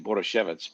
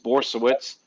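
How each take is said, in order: First: The name is said in a fancy, posh-sounding way. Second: The name is said in a plain, ordinary way. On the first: This version makes the name sound fancy. "if you want to sound uh, posh, you could say" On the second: This is the usual pronunciation of the name. "It's Borsowitz"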